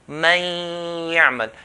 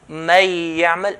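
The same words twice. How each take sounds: First: The n merges into a nasalized, held y. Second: The n merges into y without nasality. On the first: The speaker calls it right. "merge the noon into the ya. So it will be like من يعمل, two counts" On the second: The speaker calls it wrong. "I'm not doing the غنة. So this is the wrong way"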